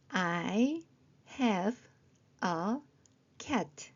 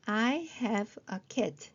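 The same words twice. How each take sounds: First: Very slow, a pause after each word; word-by-word reading. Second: Slow model sentence, words closer together; slow joined-up reading. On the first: Teacher checking phonics with short sentences, word by word. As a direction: sound out each word separately. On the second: Teacher repeating the short sentence, slowly joined up. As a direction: read it slowly as one sentence. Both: Shown as a demonstration.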